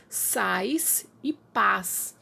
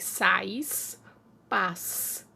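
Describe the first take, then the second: First: Very slowly, each word apart; slow demo. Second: Said in the usual way. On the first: Shown as a demonstration. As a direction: draw out "Sais" and "paz" to compare the sounds. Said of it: "sons parecidos". ("Sais e paz" bem devagar, palavra por palavra) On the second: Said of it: "eles não são iguais".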